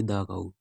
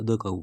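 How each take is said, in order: First: दा काऊ with a long open a; wrong pronunciation. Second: द cow with a short schwa; correct pronunciation. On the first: Teacher showing the wrong article sound. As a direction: say दा as daa before cow. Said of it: "ना कि दा काऊ". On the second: Teacher showing the right article sound. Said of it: "तो द काऊ बोलेंगे". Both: Shown as a demonstration.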